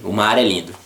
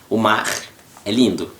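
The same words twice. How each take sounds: First: It runs on without a pause. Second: There is a pause after mar. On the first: "the whole sentence with no pauses, you gotta say" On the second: "if you have a pause between the phrase, right, no problem"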